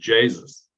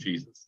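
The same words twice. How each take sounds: First: It is said in a Dublin accent. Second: It is said in a standard accent. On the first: The shouter is from Dublin. "If it was a Dubliner, he would have been shouting" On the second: The shouter is not from Dublin. "as opposed to"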